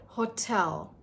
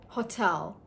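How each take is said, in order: Both takes have the same delivery.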